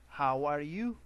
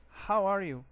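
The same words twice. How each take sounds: First: "How are YOU?", louder, rising on "you"; stress on YOU. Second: "How ARE you?", louder, pitch raised then falling on "you"; stress on ARE. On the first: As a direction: return the question, lifting "you" at the end. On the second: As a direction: ask "How are you?" as the first speaker, falling at the end. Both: Shown as a demonstration. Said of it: "Notice the accent".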